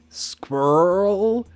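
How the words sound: It is said with an American pronunciation. "Americans say squirrel"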